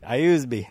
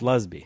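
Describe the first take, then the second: First: The name begins with an 'eye' sound. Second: The name begins with an L sound. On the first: The speaker calls it wrong. "I thought it was an I" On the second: The speaker calls it right. "It's Lusby"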